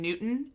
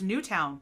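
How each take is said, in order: First: The second syllable is reduced to 'tun'. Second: The second syllable is a full 'town'. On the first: The speaker calls it wrong. "They keep saying Newton" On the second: The speaker calls it right. "the W is right there. It's right there. It's Newtown"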